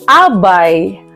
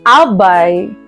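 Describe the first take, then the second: First: The stress falls on the second-to-last syllable. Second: The same.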